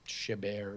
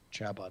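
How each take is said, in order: First: The name ends with a 'bert' sound. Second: The name ends with a 'bot' sound. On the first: The speaker calls it right. "It's Chabert or something like that" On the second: The speaker calls it wrong. "I think I mispronounced this. This is not Chabot"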